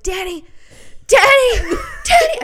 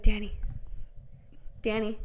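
First: Calling his name, climbing to a high yell; re-enacted frantic shouting; panicked calling. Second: Softly calling a name to wake someone; tentative calling. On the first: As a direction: escalate to a loud, high-pitched wake-up cry. Retelling escalating attempts to wake husband. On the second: Retold or imitated. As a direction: try his name quietly, without alarm. First gentle attempt to wake husband.

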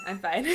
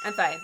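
First: Said in the usual way. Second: Squeaky, much higher, laughing I'm fine; choked-up laughing denial; laughing through emotion. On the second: Real, not acted. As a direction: insist you're fine while cracking up. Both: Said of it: "No, I'm not".

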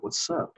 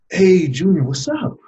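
First: Very soft, nearly whispered question; imitated grandmother, voice dropped right down; hushed questioning. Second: Grandmother's high, lifted hello; imitated upbeat grandma on the phone; cheery phone greeting. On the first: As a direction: gently check on someone who went quiet. Grandmother asks after he went quiet. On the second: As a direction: greet your grandson brightly, voice rising sharply.

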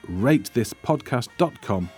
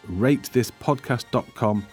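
Both takes have the same delivery.

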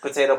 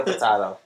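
First: Said in the usual way. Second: "potato" with a broad ah in the middle; British pronunciation. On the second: Shown as a demonstration. Co-host joking about pronunciation, "potato" said po-TAH-to.

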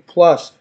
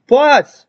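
First: Said in the usual way. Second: Loud, high-pitched PLUS; raised-voice repeat. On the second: Retold or imitated. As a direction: say PLUS louder and higher to get through headphones. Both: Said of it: "why are you yelling?".

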